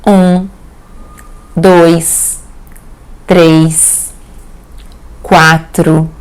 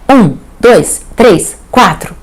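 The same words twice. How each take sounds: First: The numbers are counted slowly. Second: The numbers are counted quickly. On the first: "Ou devagar" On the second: "Pode ser rápido"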